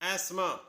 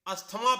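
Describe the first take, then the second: First: The middle 'th' sound is left silent. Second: A 'th' sound is pronounced in the middle. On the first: The speaker calls it right. "इसकी सही pronunciation है एस्मा" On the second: The speaker calls it wrong. "हम इसे अस्थमा पढ़ते हैं"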